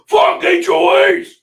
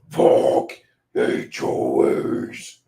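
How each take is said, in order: First: It is said in a plain speaking voice. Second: It is said in a growled death-metal voice.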